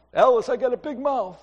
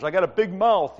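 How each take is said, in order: First: Higher-pitched TV comedy impression; Honeymooners sitcom husband. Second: Said in the usual way. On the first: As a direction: imitate the blustering Honeymooners guy. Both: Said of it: "Like the guy on the honeymooners".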